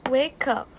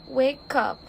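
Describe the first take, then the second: No difference in how they are said.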